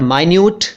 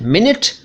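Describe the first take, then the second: First: The first syllable sounds like 'my'. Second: The first syllable sounds like 'min'. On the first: It means very small. "माइन्यूट यानी tiny" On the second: It is a unit of time. "एक समय अंतराल है"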